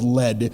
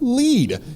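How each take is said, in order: First: The vowel is short, like 'led'. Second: The vowel is long, like 'leed'. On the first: The speaker calls it right. "that's gray, that's called lead" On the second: The speaker calls it wrong. "most people would mispronounce it and say lead"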